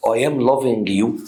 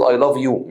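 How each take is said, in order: First: "I am loving you" drawn out slowly as a wrong example; slow and quizzical on am; mock wrong form. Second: Said in the usual way. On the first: Shown as a demonstration. Teacher showing students the wrong form, slow. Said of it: "مستحيل". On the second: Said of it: "بقول".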